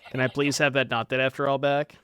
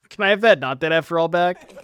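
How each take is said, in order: First: Polite, laughing please; asking nicely. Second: Loud, blunt demand. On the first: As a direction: sweeten it, ask nicely with a laugh. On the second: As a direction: bark it out as a demand. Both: Real, not acted. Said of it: "I'm asking nicely".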